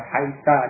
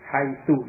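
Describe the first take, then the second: First: The word ends with an a vowel. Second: The word ends with an u vowel. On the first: "dengan fathah" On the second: "dengan dhammah"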